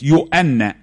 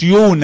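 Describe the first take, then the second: First: The name has a glottal stop in the middle. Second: The name has no glottal stop in the middle. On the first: It means John. The speaker calls it right. "يؤنا يعني يوحنا" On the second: It names a woman. The speaker calls it wrong. "ما تقولوش يونا، يونا دي واحدة ست"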